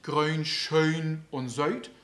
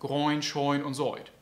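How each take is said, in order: First: The vowels are narrow ö-ü diphthongs. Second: The vowels are broadened toward an oi sound. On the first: "dann ist es nicht grün, schön und söit" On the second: "kann auch unser Ö bis zum Oi breiter werden"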